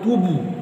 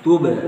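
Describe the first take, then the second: First: The final bounce takes the preceding u vowel. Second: The final bounce has a neutral vowel sound. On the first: The speaker calls it wrong. "jangan tubuh" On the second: The speaker calls it right. "bukan tubuh"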